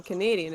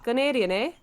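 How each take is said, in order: First: Said in the usual way. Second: Higher mock Canadian with a rising eh; mock Canadian accent. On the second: Shown as a demonstration. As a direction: put on a Canadian accent, lift the ending. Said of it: "that's more, um, Canadian".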